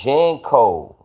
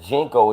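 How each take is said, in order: First: The first vowel sounds like 'a' in 'pan'. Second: The first vowel sounds like 'i' in 'pin'. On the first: The speaker calls it right. "it's Janko. Remember J A N C O?" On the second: The speaker calls it wrong. "you saying it wrong. I don't think it's Jinko"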